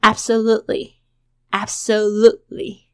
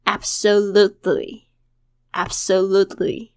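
First: "absolutely" with held unreleased T; tongue touches for the T of "absolutely" but no pop; natural weakened-T "absolutely"; softened T. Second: "absolutely" slow with crisp full T; very clear textbook "absolutely"; clear careful version. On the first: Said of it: "舌尖顶到，但是不爆破出来". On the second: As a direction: spell out every sound of "absolutely", T released. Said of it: "念得非常的清楚". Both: Shown as a demonstration.

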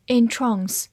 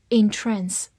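First: British "entrance", verb, stressed on the second syllable with a long ah; British English in-TRAHNS, stress at the end; British pronunciation. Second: American "entrance", verb, stressed on the second syllable with a short a; American pronunciation. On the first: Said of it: "英式发音读作". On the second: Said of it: "美式发音读作". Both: Shown as a demonstration.

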